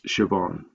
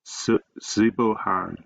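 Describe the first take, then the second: First: The name is not said as sib-oh-han. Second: The name is said as sib-oh-han. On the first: The speaker calls it right. "It's Siobhan" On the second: The speaker calls it wrong. "sometimes students pronounce it as Sibohan, but that's wrong"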